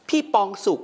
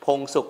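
First: "ปองสุข" with a long open vowel, high-pitched; mispronounced name. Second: Said in the usual way. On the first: Retold or imitated. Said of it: "เขาบอกพี่ปองสุข". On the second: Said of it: "พงสุขที่ผมเขียนภาษาอังกฤษเขาไม่รู้จักนะ".

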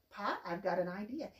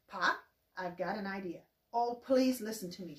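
First: Said in the usual way. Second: Eager mild pleading; begging. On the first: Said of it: "Pa couldn't believe her excitement". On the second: Acted. Ma pleading with Pa at supper, mildly begging. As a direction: ask with a touch of pleading. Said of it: "she begged".

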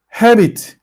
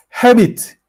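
First: Said in the usual way. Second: Habit said high with a falling tune /hebit/; model pronunciation. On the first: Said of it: "teacher repeats word". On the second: Shown as a demonstration. Teacher models Habit for the class, high and falling. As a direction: model Habit clearly for pupils. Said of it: "teacher models word".

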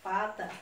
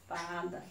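First: Said in the usual way. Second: "fada" lower and drawn out as fa, da; "fada" sounded out for young readers; sounding out syllables. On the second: Shown as a demonstration.

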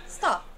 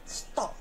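First: "stop" with a front vowel; American "stop" from the front of the mouth. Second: "stop" with a back vowel; British "stop" from the throat. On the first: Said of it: "Inglês americano". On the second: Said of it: "Britânico". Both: Shown as a demonstration. Teacher contrasting the American and British "stop".

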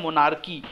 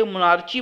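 First: मोनार्की with a hard K, ending "kee"; correct K pronunciation. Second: मोनार्ची with a "chee" sound at the end; wrong CH pronunciation. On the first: Teacher corrects students' reading of CHY, मोनार्की with "kee". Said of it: "तो इसे बोलते हैं मोनार्की". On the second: Teacher warns students against a misreading, mispronounced मोनार्ची with "chee". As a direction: read the CH in मोनार्ची as in "cheese". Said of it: "मोनार्ची मत पढ़िएगा, सीएचवाई लिखा है". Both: Shown as a demonstration.

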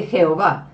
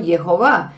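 First: "Jehová" said with a Spanish J, Je-o-vá; "Jehová" as commonly said, with J; J-sound onset. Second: "Jehová" said as Ye-ho-vá; "Jehová" with a Y in place of the J; Y-sound onset. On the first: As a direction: start "Jehová" on a throaty Spanish J. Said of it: "la J es la". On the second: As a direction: start "Jehová" with a Y, as in Yod. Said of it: "si es una Yod, la primera letra". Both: Shown as a demonstration.

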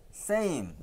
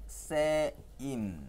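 First: Same said higher, clearly; model pronunciation. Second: Said in the usual way. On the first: Shown as a demonstration. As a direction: lift same a bit for the kids to copy. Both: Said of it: "따라해봐".

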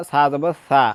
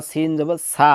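First: সা said as Arabic tha, tongue at the teeth; correct letter sa. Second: সা said with a hissed s for th; mistaken seen sound. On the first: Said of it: "সা উচ্চারণ করে ফেলে". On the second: Teacher shows learners the grave mistake, সা with an s. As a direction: swap the th in সা for a plain sibilant s. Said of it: "তাহলে লাহনে জালি হয়ে যাবে". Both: Shown as a demonstration.

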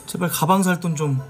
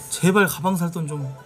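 The two takes are said the same way.

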